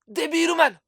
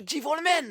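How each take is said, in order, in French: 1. Il est prononcé avec des sons japonais, soit De-bi-ru-man. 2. Il est prononcé avec des sons anglais, soit Devil-man.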